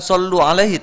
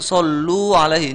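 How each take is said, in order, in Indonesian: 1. Vokalnya dibaca pendek. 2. Vokalnya dibaca panjang. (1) "bukan sallu alaihi" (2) "ada mat dibaca ... tapi sallu alaihi"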